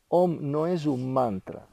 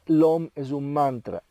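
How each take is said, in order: First: "no" pressed firmly, said slowly; slow, firm correction leaning on "no"; stress on no. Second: Said in the usual way. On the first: Shown as a demonstration. Teacher correcting a common belief, slow and firm. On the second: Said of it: "La gente dice".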